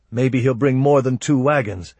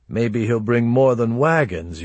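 First: Said in the usual way. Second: WAGONS lifted in a teasing echo; stress on wagons. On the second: Acted. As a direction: lean knowingly on the word wagons. Echoed line hints at a sister.

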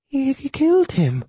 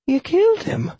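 First: High, slow, quavering widow. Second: Tiny, very high woman's voice. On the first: Widow repeats her shock to the killer, quavering. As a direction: draw it out high with a fearful quaver. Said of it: "Her voice quavered". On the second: Widow to the man who killed before her, tiny high voice. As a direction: squeak it out small and high. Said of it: "I heard a tiny voice say". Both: A narrator's reading.

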